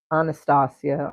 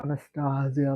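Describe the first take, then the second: First: Anastasia said with a soft S before the final "-ia"; S pronunciation. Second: Anastasia with a buzzed Z before the final "-ia"; Z pronunciation. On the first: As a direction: say Anastasia with a hissed S in the last syllable, not Z. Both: Shown as a demonstration. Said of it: "like, there's a Z at the end".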